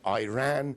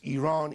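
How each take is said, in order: First: The word sounds like 'I ran'. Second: The first syllable sounds like 'ee'. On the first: The speaker calls it wrong. "it's not Iran. I didn't run anywhere" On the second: The speaker calls it right. "it's Iran"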